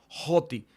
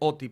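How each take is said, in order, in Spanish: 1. La palabra empieza con un sonido de h aspirada. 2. La palabra empieza directamente con la vocal. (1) "se aspira y se pronuncia como Joti" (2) "ahí dice Oti"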